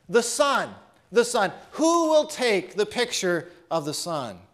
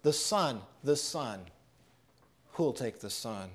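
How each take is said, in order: First: Auctioneer's call. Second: Hushed echo of the call. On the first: Acted. Auctioneer calls for a bid. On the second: Shown as a demonstration. Preacher echoing the auctioneer's call to the congregation, hushed. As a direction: let the auctioneer's call fall to a hush. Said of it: "much like the auctioneer, his message today is the same".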